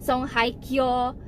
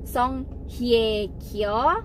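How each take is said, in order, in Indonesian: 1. Suku kata tengah terdengar seperti 'hai'. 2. Suku kata tengah terdengar seperti 'hye'. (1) "tulisannya Hye dibacanya Hai" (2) "dibacanya itu adalah Hye, bukan Hai"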